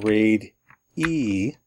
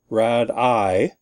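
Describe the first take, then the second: First: The first vowel is long, as in made. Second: The first vowel is short, as in bad. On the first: The speaker calls it right. "we want to say raid-E" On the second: The speaker calls it wrong. "instead of saying rad-I"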